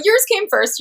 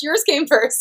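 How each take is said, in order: First: Insistent. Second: Said in the usual way. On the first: Real, not acted. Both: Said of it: "repeats insistently".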